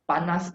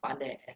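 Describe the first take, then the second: First: The final s sound is pronounced. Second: The final s sound is dropped. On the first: This is the standard form. "panas becomes pane" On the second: This is how the speaker's community says it. "panas becomes pane"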